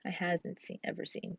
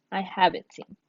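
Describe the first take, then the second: First: Quiet test of the wrong form; trying out "I hasn't seen" under the breath; wrong version, softly. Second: Said in the usual way. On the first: Shown as a demonstration. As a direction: murmur "I hasn't seen" as a trial. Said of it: "That doesn't make sense". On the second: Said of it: "I is one of those exceptions".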